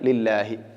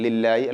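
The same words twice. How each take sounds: First: A clear h sound is pronounced. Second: The h sound comes out like a y. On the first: The speaker calls it right. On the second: The speaker calls it wrong.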